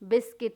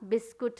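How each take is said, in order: First: The second syllable has a short 'ih' vowel. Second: The second syllable has an 'oo' vowel. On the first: The speaker calls it right. "सी आई टी बिस्किट होगा" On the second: The speaker calls it wrong. "बिस्कुट नहीं"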